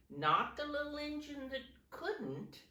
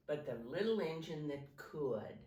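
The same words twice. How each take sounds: First: High, stressed "couldn't" set against "could". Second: Plain teacher correction; stress on could. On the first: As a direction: lift the voice on "Not the little engine that couldn't". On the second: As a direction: settle down on "the little engine that could". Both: Shown as a demonstration.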